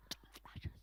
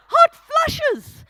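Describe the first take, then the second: First: Silent mouthing, barely any breath; mouthed whisper. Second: Much higher and louder, overdone outrage; exaggerated mock mouthing. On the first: Retold or imitated. Imitating the chemist mouthing the words in a silent whisper. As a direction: shape the words with no voice at all. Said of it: "she mouthed the words". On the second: Mocking the chemist's whispered hot flushes, hammed-up and loud. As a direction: blow up the mouthed words to mock them. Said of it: "she mouthed them".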